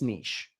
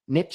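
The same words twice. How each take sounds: First: The word sounds soft and delicate. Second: The word sounds like it rhymes with itchy. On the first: The speaker calls it right. "It sounds just more delicate, more sexy" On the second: The speaker calls it wrong. "niche is a little bit too itchy"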